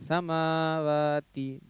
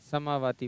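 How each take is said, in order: First: The vowels after m and w are lengthened. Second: The vowels after m and w are short. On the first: The speaker calls it right. "मीम और वाव को बराबर खींचना है" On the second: The speaker calls it wrong. "समावाती पर नहीं"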